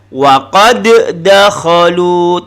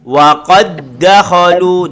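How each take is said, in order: First: The d is released with a bouncing echo. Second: The d is held and merged, with no echo. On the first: The speaker calls it wrong. "Kalau qalqalah kan" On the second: The speaker calls it right.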